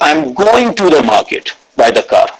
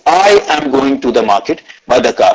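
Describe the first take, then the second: First: The word 'going' carries the stress. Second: The word 'I' carries the stress. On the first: The person is going, not coming back or doing something else. "Second is" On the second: It is this person, not someone else, going. "I gave stress on the word I"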